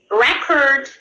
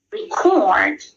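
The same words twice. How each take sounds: First: Record as a noun, stressed on the first syllable. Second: Record as a verb, stressed on the second syllable, drawn out. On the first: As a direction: say record with the beat on REC. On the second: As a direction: say record with the beat on CORD. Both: Shown as a demonstration. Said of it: "the word is stressed in other syllable".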